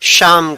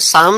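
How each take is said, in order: First: It begins with a 'sh' sound. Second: It begins with an 's' sound. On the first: The speaker calls it right. "उसे शाम कहते हैं" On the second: The speaker calls it wrong. "उसे शाम नहीं कहते हैं"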